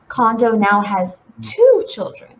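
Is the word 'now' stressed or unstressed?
unstressed. The word now is not stressed.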